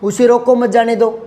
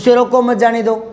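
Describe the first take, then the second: Both takes have the same delivery.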